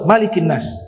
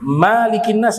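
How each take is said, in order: First: The first vowel of Malik is kept short. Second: The first vowel of Malik is drawn out long. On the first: The speaker calls it right. "Dia harus qashar" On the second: The speaker calls it wrong. "tidak boleh dipanjangkan ... enggak boleh"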